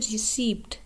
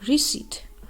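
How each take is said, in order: First: The p sound is pronounced in the word. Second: The p sound is left out of the word. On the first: The speaker calls it wrong. "पी की आवाज़ हम निकाल रहे होते हैं" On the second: The speaker calls it right. "जबकि असल लफ्ज़ है"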